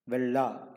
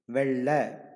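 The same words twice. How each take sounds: First: The word ends in a plain 'a' vowel. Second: The word ends in an 'e'-like vowel. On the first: The speaker calls it wrong. "It is not vella" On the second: The speaker calls it right. "it is vella"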